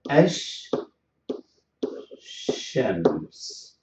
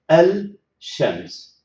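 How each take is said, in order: First: The L merges into a doubled sh sound. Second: An L sound is said before the sh. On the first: The speaker calls it right. "we are going to say Ash Shams" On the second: The speaker calls it wrong. "the poor tongue will move from lam to sheen, and that is very exhausting"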